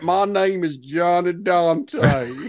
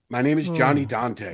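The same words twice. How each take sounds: First: It is said in a put-on Texan accent. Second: It is said in a plain, normal voice. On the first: The speaker calls it right. "That's a way better Texan accent" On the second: The speaker calls it wrong. "I forgot. I was going to do a different voice for him"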